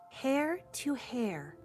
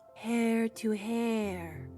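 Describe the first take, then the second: First: It sounds careful and meticulous. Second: It sounds eerie and spooky.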